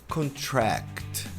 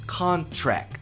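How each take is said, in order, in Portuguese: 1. A tônica está na última sílaba. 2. A tônica está na primeira sílaba. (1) "e a tônica no final" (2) "a sílaba tônica dessa palavra é o C O N"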